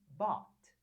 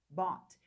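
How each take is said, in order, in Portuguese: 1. Fala-se como uma sílaba curta, bot. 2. Fala-se como uma sílaba curta, bot.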